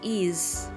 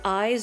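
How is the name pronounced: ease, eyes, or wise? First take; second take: ease; eyes. First: It sounds like the word ease. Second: It sounds like the word eyes. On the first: This matches how the name is written in kana. The speaker calls it right. "I can confirm it is ease" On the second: Some people read the name this way. The speaker calls it wrong. "I've heard people say eyes"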